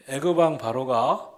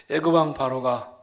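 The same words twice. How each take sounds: The two takes are said the same way.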